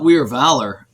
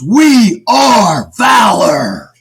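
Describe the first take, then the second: First: It is said flatly, without energy. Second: It is said excitedly, with energy.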